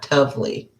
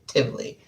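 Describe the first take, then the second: First: The syllable has an 'oh' vowel, like 'tov'. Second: The syllable has an 'ih' vowel, like 'tiv'. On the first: The speaker calls it wrong. "not tovely" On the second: The speaker calls it right.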